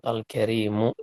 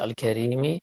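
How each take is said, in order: First: The word ends with a short u vowel. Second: The word ends with a short i vowel. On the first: The word describes the Lord. "dengan dhammah" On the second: The word describes the Throne. "pakai kasrah"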